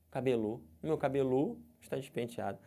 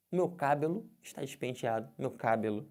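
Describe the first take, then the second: First: "cabelo" said cabe-LÔ, stress on the last syllable; wrong final-syllable stress. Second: "cabelo" said CÁ-belo, stress on the first syllable; wrong first-syllable stress. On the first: Teacher proves the last syllable is wrong, stressing cabe-LÔ. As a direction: push "lo" in "cabelo" with a closed O. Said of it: "como é que eu falo essa palavra agora". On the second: Teacher proves the first syllable is wrong, oddly stressed CÁ-belo. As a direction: punch "ca" in each "cabelo". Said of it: "porque ficou esquisito". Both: Shown as a demonstration.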